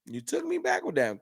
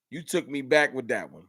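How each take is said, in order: First: High mock voice. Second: Said in the usual way. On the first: Real, not acted. Repeats line in new voice.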